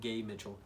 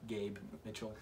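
First: The first word loses its b, sounding like gay. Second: The first word ends clearly with a b sound. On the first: The speaker calls it wrong. "not Gabe Mitchell" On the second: The speaker calls it right. "Just want to make it clear"

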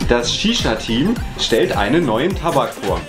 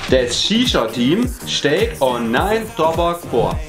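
First: It is said in standard German. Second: It is said in Bavarian dialect.

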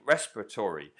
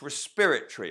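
First: The word is said with an American pronunciation. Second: The word is said with a British pronunciation. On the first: The speaker calls it wrong. "I've always been saying it the American way" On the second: The speaker calls it right. "but it's respiratory"

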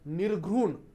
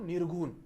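First: The word is pronounced in its careful standard form. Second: The word is pronounced in its casual everyday form. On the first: The speaker calls it right. "हा शब्द असा आहे बरं" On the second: The speaker calls it wrong. "पण आपण बोलताना कसं म्हणतो, हे चुकीचं आहे"

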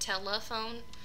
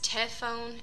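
First: All three syllables are pronounced. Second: The unstressed middle syllable is left out. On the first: The speaker calls it right. "instead of" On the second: The speaker calls it wrong. "unstressed syllable deletion"

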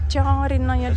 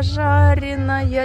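First: The word starts with a soft t sound. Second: The word starts with a zh sound.

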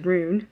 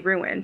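First: The word is said as one syllable. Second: The word is said with two syllables. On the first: The speaker calls it wrong. "She says rune" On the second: The speaker calls it right. "she can't say ruin"

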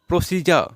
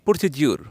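First: The middle consonant is a j sound. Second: The middle consonant is a d sound. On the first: The speaker calls it right. "আমরা প্রসিডিউর না বলে বলবো প্রসিজা" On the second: The speaker calls it wrong. "আমরা প্রায় বলে থাকি প্রসিডিউর, যেটা common ভুল।"

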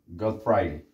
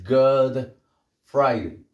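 First: The D of good is dropped before Friday. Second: The D of good is clearly pronounced. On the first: The speaker calls it right. "y perdemos la D" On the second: The speaker calls it wrong. "esa D no vamos a decir God Friday"

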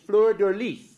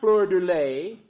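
First: The last syllable sounds like 'lee'. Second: The last syllable sounds like 'lay'. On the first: The speaker calls it right. "the correct way of pronouncing it is" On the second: The speaker calls it wrong.

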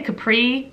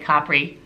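First: It is said with an American pronunciation. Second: It is said with an Italian pronunciation. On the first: This is how non-Italians say it. "We say Capri" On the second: This is how Italians say it. "they say Capri"

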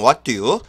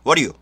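First: It is said slowly, word by word. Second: It is said quickly, words linked together.

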